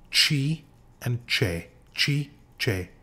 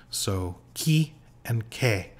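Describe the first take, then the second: First: Chi as "chee", che as "cheh", slow and careful; Italian chi and che with ch sound. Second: Chi said as "kee" and che said as "keh", slowly; Italian chi and che. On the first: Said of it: "the C I and C E sound like ch". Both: Shown as a demonstration.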